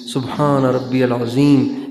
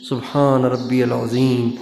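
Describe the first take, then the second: No difference in how they are said.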